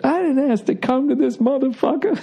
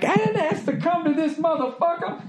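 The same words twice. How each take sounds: First: Repeated with relish, high; Richard Pryor quote. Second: High, hushed, indignant mutter; Richard Pryor quote. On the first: Quoting his favorite Pryor line, relishing it. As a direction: savor the line again. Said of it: "one of my favorite lines he ever had". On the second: Pryor fuming in the back room, hushed indignation. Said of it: "that Richard Pryor bit". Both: Retold or imitated.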